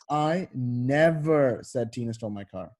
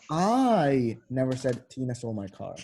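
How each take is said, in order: First: The stress is on the word never. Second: The stress is on the word I.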